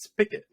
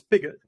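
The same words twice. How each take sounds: First: It uses the Carolinas regional pronunciation. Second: It follows the spelling, a general pronunciation. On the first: The speaker is from the Carolinas. "If you're from the Carolinas, it's Spig it's Spigot" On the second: The speaker is from outside the Carolinas. "if you're from anywhere else, it's Spigot because that's the way it's it's spelled"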